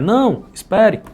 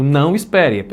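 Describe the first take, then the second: First: There is a pause after "não". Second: It is said without a pause after "não".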